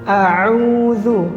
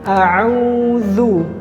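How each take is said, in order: No difference in how they are said.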